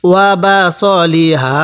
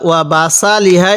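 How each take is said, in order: First: ওয়া বা স লি হা with a short clipped স; short স, no stretch; correct reading. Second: ওয়া বা সা লি হা with a long open সা; wrong reading. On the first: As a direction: model the right short স. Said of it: "এরকম করে পড়ব". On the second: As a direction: show the common mistake, সা stretched. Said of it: "এরকম করে পড়ব না". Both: Shown as a demonstration.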